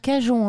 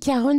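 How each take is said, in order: First: The middle consonant is a soft zh sound. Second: The middle consonant is a throaty r-like sound. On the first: This is how the speaker says it. "moi je l'ai à la française" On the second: This is how someone else says it. "il nous le fait à l'américaine"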